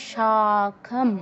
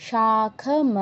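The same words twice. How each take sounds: The two takes are said the same way.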